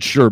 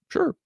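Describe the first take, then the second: First: The word is said in a deep voice. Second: The word is said in a lighter voice. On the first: The speaker calls it right. "he's like a big dude" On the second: The speaker calls it wrong. "he doesn't sound like that"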